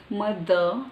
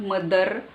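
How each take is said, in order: First: "mother" with no final r, muh-thuh; slow British r-less "mother"; British pronunciation. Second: "mother" with the final r sounded, mud-derr; r-coloured ending on "mother"; wrong pronunciation. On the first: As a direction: drop the r and end "mother" on an open vowel. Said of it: "It's British". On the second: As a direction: pronounce the r at the end of "mother". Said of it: "It's not mother". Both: Shown as a demonstration.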